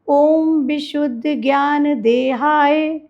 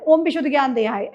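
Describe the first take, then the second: First: It is recited slowly and tenderly. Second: It is recited quickly and hurriedly. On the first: The text is recited with love. The speaker calls it right. "ऐसे प्यार से पढ़ना है" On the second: The text is rushed through. The speaker calls it wrong. "ऐसे नहीं पढ़ना है speed में"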